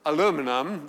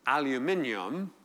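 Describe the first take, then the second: First: Aluminum said the American way, four syllables, a-LOO-mi-num; American pronunciation. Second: Aluminium said the British way, five syllables, al-yoo-MIN-ee-um; British pronunciation. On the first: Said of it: "which here you call". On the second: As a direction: say aluminium with the English stress on MIN. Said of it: "which in England we call". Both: Shown as a demonstration.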